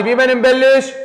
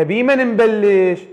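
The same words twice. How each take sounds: First: Louder repeat. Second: Said in the usual way. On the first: Shown as a demonstration. Teacher to her class, demanding a loud answer, louder. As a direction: question repeated louder and higher. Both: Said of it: "صوت عالي".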